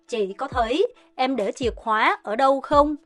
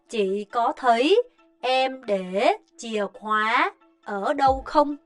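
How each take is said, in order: First: It is said at a faster pace. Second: It is said at a slower pace.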